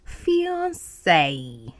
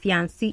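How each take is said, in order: First: The last syllable sounds like 'say'. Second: The last syllable does not sound like 'say'. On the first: The speaker calls it right. "it is fiancé. Say, say" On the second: The speaker calls it wrong. "But it is not fiancé"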